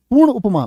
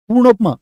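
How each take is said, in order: First: पूर्ण उपमा said as two separate words; teacher splitting पूर्ण from उपमा; split compound. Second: Said in the usual way. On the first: Shown as a demonstration.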